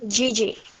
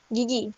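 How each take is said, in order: First: The name is said with English sounds. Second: The name is said with Indonesian sounds. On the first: "tapi kalau dalam bahasa Inggris dibacanya Gigi" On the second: "Kalau dalam bahasa Indonesia gigi itu dibacanya gigi"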